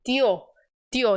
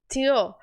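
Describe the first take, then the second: First: "Tio" with a soft dental t, no chi; soft Spanish tio. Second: "Tio" with a Brazilian chi sound; wrong Brazilian tio. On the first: Teacher models the correct "Tio" for students. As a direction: say "Tio" gently, with a clean soft t. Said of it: "você tem que dizer suave". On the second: Teacher shows students the wrong "Tio". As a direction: say "Tio" the Portuguese way, as chio. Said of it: "não é tio". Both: Shown as a demonstration.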